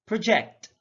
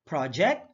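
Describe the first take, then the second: First: ProJECT, second syllable punched; careful demo of proJECT; stress on second syllable. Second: PROject, open PROJ; careful demo of PROject; stress on first syllable. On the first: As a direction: say "project" as pruh-JECT. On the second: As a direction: say "project" as PRAH-ject. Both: Shown as a demonstration. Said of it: "stress is the verbal emphasis used".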